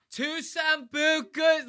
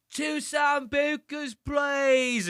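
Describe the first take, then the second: First: Put-on very high, slow drunken slur; wasted girl. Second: Put-on high, slurred drunk shout of an order; wasted girl. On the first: Drunk girl still ordering from the DJ, slow high slur. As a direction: drag it out high like she's blackout drunk. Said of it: "she goes". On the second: Drunk girl shouting her order at the DJ booth, high slurred yell. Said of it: "she's so drunk. She's like".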